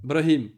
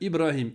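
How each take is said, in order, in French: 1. Le nom commence directement par le groupe de consonnes br. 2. Le nom commence par la voyelle i avant br. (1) "Eux, ils font Brahim. On peut pas" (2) "Ib, Ib, Ibrahim"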